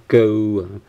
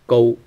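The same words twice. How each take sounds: First: "go" with a gliding British geh-oo vowel; the mistaken British-sounding "go"; British-style vowel. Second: "go" starting on a full rounded o; correct rounded o. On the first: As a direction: draw "go" out into the wrong British glide. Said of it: "not go". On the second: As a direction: say "go" with a level o, no British eu. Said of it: "There's no u sound". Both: Shown as a demonstration.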